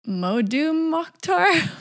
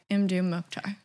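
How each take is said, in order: First: The first name begins with a 'mo' sound. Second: The first name begins with an 'im' sound. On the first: The speaker calls it wrong. "I always said Modu Mokhtar, which is not correct either" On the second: The speaker calls it right. "It is Imdu Mokhtar"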